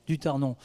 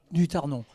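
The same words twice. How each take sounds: The two takes are said the same way.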